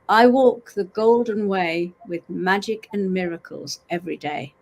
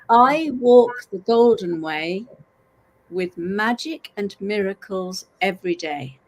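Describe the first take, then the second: First: It is said at normal speed. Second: It is said slowly.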